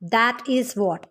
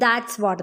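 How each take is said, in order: First: It is said in full as two words. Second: It is said contracted as one syllable.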